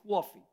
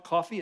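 First: Coffee as kwaw-fee, a w after the k; coffee with the New York w glide. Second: Said in the usual way. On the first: Shown as a demonstration. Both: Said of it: "you just add a W to everything".

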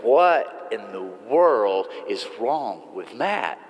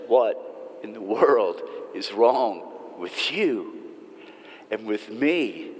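First: A slow, low, mock-baffled aside, leaning on "What"; dismissive head-shake as others gossip about Matt; puzzled gossip. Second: Slow, quiet and heavy, leaning on "wrong"; earnest turn inward. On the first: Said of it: "we hear that and we go". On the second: Real, not acted. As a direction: turn the question back on the listeners, gently. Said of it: "The real question is".

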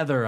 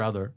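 First: "Ether" with eh as first vowel; regional "Ether" for other. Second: Said in the usual way. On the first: Shown as a demonstration. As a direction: say "Ether" to rhyme with feather. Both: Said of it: "what do I say".

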